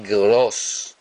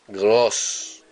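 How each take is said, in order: No difference in how they are said.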